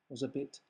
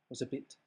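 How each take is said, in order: Both takes have the same delivery.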